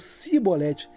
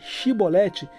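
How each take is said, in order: First: The word begins with an 's' sound. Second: The word begins with a 'sh' sound. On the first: It marks the speaker as an Ephraimite. The speaker calls it wrong. "não conseguiam pronunciar corretamente dizendo sibolete" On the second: It marks the speaker as a Gileadite. The speaker calls it right. "A palavra shibolete"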